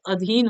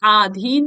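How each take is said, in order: First: अधीन with a short opening a; correct form. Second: आधीन with a long opening aa; wrong form. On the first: Teacher correcting vowel length, correct short start. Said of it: "अधीन होता है". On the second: Teacher showing a vowel-length error, wrong long start. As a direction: stretch the first vowel of आधीन. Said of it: "आधीन नहीं होता है". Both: Shown as a demonstration.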